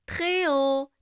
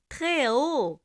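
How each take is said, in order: Both takes have the same delivery.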